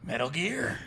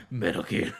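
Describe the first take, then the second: First: High mock game-hero voice; a hammed-up Metal Gear line. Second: Metal Gear voice. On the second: Pretend. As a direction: drop into a gruff game voice.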